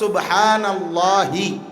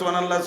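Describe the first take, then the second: First: It ends with an added -hi vowel sound. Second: It ends on a bare h, repeated without breathing. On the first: The speaker calls it right. "নিঃশ্বাস না ছাড়লে শব্দটা হবে সুবহানাল্লাহি" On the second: The speaker calls it wrong. "আপনি এক নিঃশ্বাসে তো পাঁচ ছয় বার কইতেছেন"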